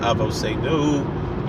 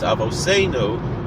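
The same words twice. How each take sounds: First: The stress is on the last syllable. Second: The stress is on the second-to-last syllable. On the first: The speaker calls it wrong. "It's not Avoseinu" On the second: The speaker calls it right. "it's Avoseinu"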